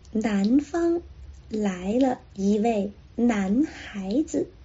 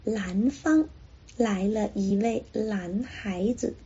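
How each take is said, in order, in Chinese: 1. 南和男开头是 n 音。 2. 南和男开头是 l 音。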